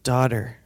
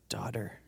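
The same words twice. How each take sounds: First: Louder, fully voiced declaration; firm address. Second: Soft, low whisper; tender hush. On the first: Jesus naming the healed woman, firm and loud. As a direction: speak it out firmly. Repeats the word out loud, firmly. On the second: Acted. Jesus to the trembling woman, tender and hushed. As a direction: say it gently, barely voiced.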